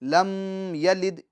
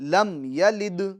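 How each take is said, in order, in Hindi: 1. m को नासिका की गुन्ना (गूंज) के साथ रोका गया है। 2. m छोटा और साफ़ है, इसमें नासिका की गुन्ना नहीं है। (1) "ये गलत है" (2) "बल्कि दुरुस्त क्या है"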